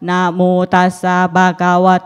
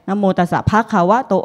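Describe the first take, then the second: First: It is said on one flat, level pitch. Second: It is said with varying Thai tones. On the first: The speaker calls it right. "เสียงสามัญคือไม่มีอินโทเนชันคือเป็นโมโนโทน" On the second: The speaker calls it wrong. "ไม่มีใคร"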